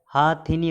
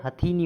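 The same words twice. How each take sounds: First: हाथिनी opening on long "haa"; wrong long first vowel. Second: हथीनी opening on short "ha"; short first vowel. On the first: Teacher showing the error, long "haa" in हाथिनी. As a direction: stretch "haa", short thi in हाथिनी. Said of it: "गलत है". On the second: Teacher correcting students, short "ha" in हथीनी. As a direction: clip "ha" in हथीनी. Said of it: "होता है". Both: Shown as a demonstration.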